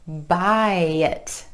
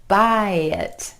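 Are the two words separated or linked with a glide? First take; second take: linked; linked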